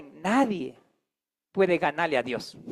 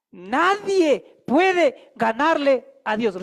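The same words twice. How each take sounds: First: Said in the usual way. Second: "Nadie puede ganarle a Dios" drawn out slowly, "puede" stressed; slow, weighty, every word apart; slow emphatic declaration. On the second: Shown as a demonstration. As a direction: spell each word out for the congregation to repeat. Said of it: "Repita conmigo".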